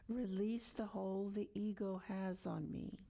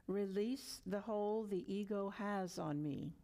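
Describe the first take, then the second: Both takes have the same delivery.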